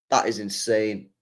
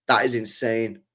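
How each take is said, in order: Both takes have the same delivery.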